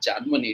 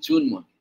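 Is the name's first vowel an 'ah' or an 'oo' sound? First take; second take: ah; oo. First: The first vowel is an open 'ah' sound. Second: The first vowel is a rounded 'oo' sound. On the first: The speaker calls it wrong. "It is not জানমণি" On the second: The speaker calls it right. "It is actually জুনমণি"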